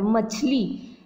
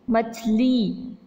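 First: Said in the usual way. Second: मछली drawn out very slowly, each sound clear; slow, clear pronunciation. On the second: Shown as a demonstration. Teacher slowly spells out मछली for the children. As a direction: stretch मछली out slowly for the class. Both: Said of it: "मछली होता है क्या".

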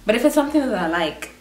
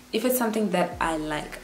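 First: Hurried, run-together phrase, "something that I like" rushed; speaking too quickly. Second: "if it's something that I like" said less hurriedly; slowed-down repeat. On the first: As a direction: rattle off "if it's something that I like". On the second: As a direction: restate "something that I like" more carefully, words spaced out. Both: Real, not acted. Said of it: "I'm speaking so quick".

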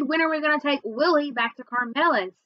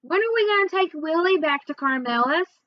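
First: Impatient little brother repeating himself; insistent repeat. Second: High, nagging little brother; mildly insistent child's question; pestering question. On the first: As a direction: demand an answer, leaning on SAID. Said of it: "grabbed my backpack and yanked". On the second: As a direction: keep asking, pitched up. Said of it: "Then he kept asking". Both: A narrator's reading.

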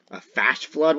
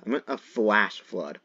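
First: "flash" with the L slurred away, questioning; mispronounced flash. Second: "flash" said carefully with its L; corrected pronunciation. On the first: Player querying own slip, "flash" said without its L. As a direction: say "flash" as if it were fash. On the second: Player correcting own slip, "flash" with a clear L. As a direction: sound out the L in "flash". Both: Shown as a demonstration. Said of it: "Excuse my pronunciation".

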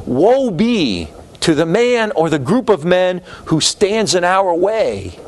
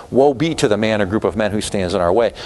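First: Slow, weighty presidential proclamation; solemn Wilson quote. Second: Said in the usual way. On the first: Retold or imitated. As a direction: intone it slowly like a stern wartime president. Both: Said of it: "Wilson said".

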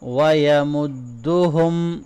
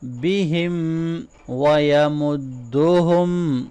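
First: ویمدہم with all vowels short; no lengthening. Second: ویمدہم slowly with no letter stretched; no lengthening. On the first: Teacher repeating the word with short vowels. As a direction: recite ویمدہم without stretching any letter. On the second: Teacher demonstrating short vowels to students. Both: Shown as a demonstration. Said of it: "کسی بھی letter کو long نہیں کرنا".

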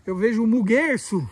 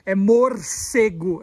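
First: Says muguerço for morcego, on purpose; "muguerço" said in place of "morcego", deliberately wrong; cute wrong word "muguerço"; playful mispronunciation. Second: "morcego" said slowly and carefully, every syllable clear; correcting him, slow careful "morcego"; correct pronunciation. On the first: Shown as a demonstration. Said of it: "eu gosto de falar errado". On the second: Retold or imitated. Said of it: "Não é muguerço".

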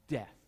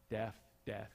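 First: Death in a Southern accent, sounding like deaf. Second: Death, death said twice in a Southern accent, both the same. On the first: Real, not acted. Pastor telling his congregation the word in his Southern accent, sounding like deaf. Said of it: "which I say with my southern accent". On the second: Shown as a demonstration. Pastor showing the congregation his Southern accent makes both words the same. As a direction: show that Death and death sound alike in your Southern accent. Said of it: "I say them the same way".

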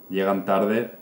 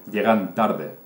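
Both takes have the same delivery.

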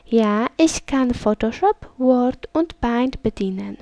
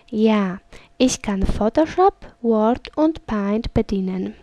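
The two takes are said the same way.

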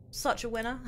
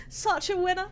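First: Dry sarcasm. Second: Laughing at herself, pitched higher; self-mocking giggle. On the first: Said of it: "end up typing it in the emoji bit". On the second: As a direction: repeat "Such a winner." through a laugh. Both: Real, not acted.

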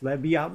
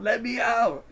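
First: Understated acted plea to be let out; mild mock yell. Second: High, rising cry to be let out; acted yell. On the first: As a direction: read the yell with restraint. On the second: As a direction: push the pitch up into a desperate plea. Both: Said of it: "she yells".

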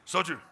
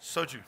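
First: Soju said short and punchy, as a Korean word; Korean pronunciation. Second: Said in the usual way. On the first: Shown as a demonstration. Chef proudly says the Korean drink name properly. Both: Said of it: "I have to say it like that".

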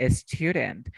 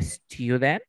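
First: "student" with a quick tapped d; flapped D. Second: "student" as "styoo-dent", d not tapped; D sound demo. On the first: Teacher echoes student's answer, "student" with flapped d. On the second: Teacher shows Geraldine own form, "student" as "styoo-dent". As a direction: say "student" with a y-glide and a d in the middle. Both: Shown as a demonstration. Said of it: "Pero yo digo student".

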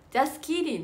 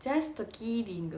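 First: "Just kidding" with the T of "Just" pronounced; wrong pronunciation. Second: "Just kidding" said slowly with no T, just-kidding run together; correct pronunciation. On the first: Retold or imitated. Her old mistake, saying the T in "Just kidding". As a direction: sound the T in "Just kidding" before kidding. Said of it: "って言ってたの". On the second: Shown as a demonstration. The coach's correct version, slow, T dropped. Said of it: "「と」入れちゃダメって".

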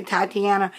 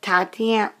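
First: "Tatiana" said in full as tie-tee-ANN-uh; own pronunciation. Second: "Tatiana" said short, ending swallowed; corrected-away pronunciation. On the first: Vlogger correcting how she says the doll's name, full pronunciation. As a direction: open "Tatiana" with a "tie" sound, every syllable spoken. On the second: Vlogger first trying the doll's name, shortened pronunciation. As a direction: say "Tatiana" clipped to about two syllables. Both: Real, not acted. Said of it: "no, I say Tatiana".

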